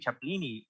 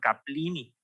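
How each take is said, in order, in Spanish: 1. La palabra empieza con sonido ch. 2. La palabra empieza con sonido k. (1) "la tienes que pronunciar así" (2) "no usas como en latín que tendrías que ser Caplini"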